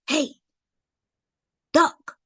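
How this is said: It is said urgently and seriously. Something dangerous is happening right now. "his tone and everything, that he's serious"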